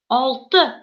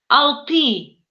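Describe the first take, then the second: First: The last vowel is short and reduced. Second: The last vowel is a full Russian 'y'. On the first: This is how a Tatar speaker says it. The speaker calls it right. "А татарин произносит алты" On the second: This is how an ordinary Russian speaker would read it. The speaker calls it wrong. "обычный русский человек прочитал бы это слово, это выглядело бы так"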